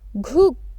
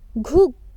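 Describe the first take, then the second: First: The first consonant is strong and full. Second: The first consonant is strong and full.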